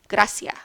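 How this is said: The c is an s; the final s drops. "the soft C is pronounced just like the S, but the ending of the word is often chopped off"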